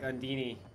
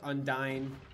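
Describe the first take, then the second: First: The name ends with a 'dee-nee' sound. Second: The name ends with a 'dine' sound. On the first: "some people say it's pronounced like Undini" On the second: "Not Dean, Dine"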